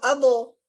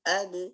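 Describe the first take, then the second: First: The b is followed by a full vowel. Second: The b ends in a short, light echo. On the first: The speaker calls it wrong. "Tidak kita bilang abo" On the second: The speaker calls it right. "Kalau yang benarnya gini"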